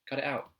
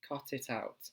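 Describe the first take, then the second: First: It is said in a South London accent. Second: It is said in a Received Pronunciation accent. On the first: "in the natural way that I speak with my South London accent" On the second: "In received pronunciation"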